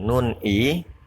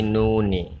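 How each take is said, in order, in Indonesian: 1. Huruf n terakhir dipisah sebelum i. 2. Huruf n terakhir menyambung ke i. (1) "bukan nun i" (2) "tapi nuni"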